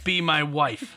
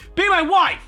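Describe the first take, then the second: First: It is said in a calm, flat way. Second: It is said with excited, exclaiming force.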